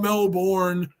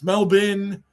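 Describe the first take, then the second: First: The last syllable is a full 'bourne'. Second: The last syllable is reduced to 'bin'. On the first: The speaker calls it wrong. "It's not Melbourne" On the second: The speaker calls it right. "It's M E L slash B I N"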